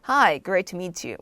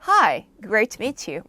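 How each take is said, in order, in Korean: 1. 차분하고 담백하게 들려요. 그래도 다정해요. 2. 밝고 활기차게 들려요. 진짜 인사처럼요. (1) "나 성격이 그렇게 저는 밝지 않아요" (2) "진짜 사람 만났듯이 얘기해볼게요"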